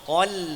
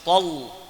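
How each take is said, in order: First: The L sound is thin and light. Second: The L sound is thick and heavy. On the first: The speaker calls it right. "lamnya tipis" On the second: The speaker calls it wrong. "bukan tol"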